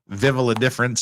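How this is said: It is said with an Australian pronunciation.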